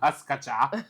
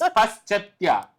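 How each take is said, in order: First: The word is said with a k-like sound. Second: The word is said with a sh-ch sound. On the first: The speaker calls it wrong. "do you know it's not Pascacha?" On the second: The speaker calls it right. "It's Paschetya"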